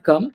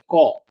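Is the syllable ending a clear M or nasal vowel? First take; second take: clear M; nasal vowel. First: The syllable ends with a clear M sound. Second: The syllable ends in a nasal vowel, no M. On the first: The speaker calls it wrong. "It's not come" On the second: The speaker calls it right. "it's co"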